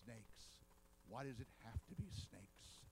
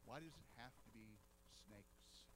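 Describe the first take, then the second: First: Lower, weary groan of a movie hero; a lightly voiced Indy dreading the snake pit; quoting Indiana Jones in a low, fed-up voice. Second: Lower, softer, fading to a whisper on snakes; Eve's inner thought. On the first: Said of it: "And he says". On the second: Retold or imitated. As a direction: mutter it to yourself in dread. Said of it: "I'll bet Eve was thinking the very same thing".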